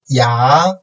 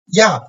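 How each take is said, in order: First: The pitch rises from mid to high. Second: The pitch falls sharply from high to low.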